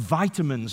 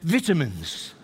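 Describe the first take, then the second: First: It is said with an American pronunciation. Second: It is said with a British pronunciation.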